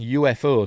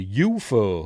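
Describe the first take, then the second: First: It is spelled out as three separate letters. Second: It is said as a single word. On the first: "You can shorten"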